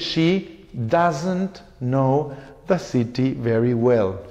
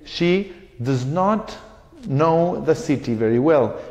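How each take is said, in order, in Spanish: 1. El auxiliar se contrae en una sola sílaba. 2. El auxiliar se dice como dos palabras completas.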